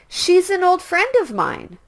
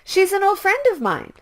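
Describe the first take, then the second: First: The sentence is spoken at a slower pace. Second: The sentence is spoken at a faster pace. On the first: "Please repeat after me" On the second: "Speed it up, please"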